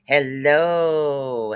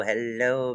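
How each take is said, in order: First: A long, cheery sung-out greeting; drawn-out singsong hello. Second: Said in the usual way. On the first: Real, not acted. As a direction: stretch the hello out long and falling. Greeting a viewer in live chat.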